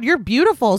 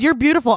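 First: It is said in an open, gushing way. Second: It is said in a held-back, repressed way. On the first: The attraction is openly admitted. "she's not like, oh my God" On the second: The attraction is being suppressed. "it was very like repressed"

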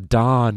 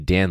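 First: The vowel sounds like the one in 'cot'. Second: The vowel sounds like the one in 'cat'. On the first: The speaker calls it wrong. "They'll be like, a Don over there. Nope" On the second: The speaker calls it right. "That was an A, not an O"

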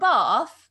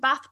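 First: It is said in a mimicked local accent. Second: It is said in the speaker's usual accent. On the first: "They're like, a Bath?" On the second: "can I get a return ticket to Bath"

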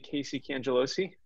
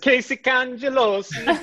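First: The name is said in an ordinary accent. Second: The name is said in an Italian accent.

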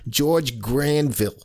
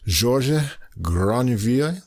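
First: The name is said with a New York accent. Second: The name is said with a French accent. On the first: "in New York they would say" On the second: "I guess his French pronunciation would be"

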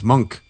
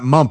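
First: The syllable ends with a k sound. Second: The syllable ends with a p sound. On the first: The speaker calls it right. "It's monk" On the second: The speaker calls it wrong. "It's not mump"

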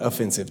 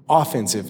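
First: The stress is on the second syllable. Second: The stress is on the first syllable. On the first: It means insulting or causing offence. "not offensive. Don't be offended" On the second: It means used for attacking. "only one of those is offensive"

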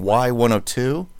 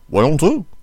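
First: It is said in a plain, clearly enunciated voice. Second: It is said in an overpowering, booming radio voice.

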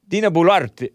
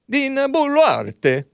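First: The name is said plainly, without Italian flavor. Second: The name is said with an Italian-sounding flavor.

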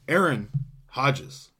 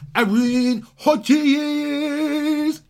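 First: The name is said flatly, without emphasis. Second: The name is announced with loud, excited emphasis.

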